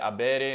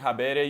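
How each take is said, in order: First: It begins directly with a vowel. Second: It begins with an audible H sound. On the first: This is the later pronunciation after the H was lost. "this H was dropped" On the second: This is the original Latin pronunciation. "Latin had words like habere with the letter H, which originally was pronounced"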